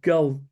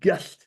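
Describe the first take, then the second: First: The word ends with a plain L sound. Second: The word ends with a T-like sound. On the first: "their main beer is called Gull" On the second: "but it's pronounced Gullt"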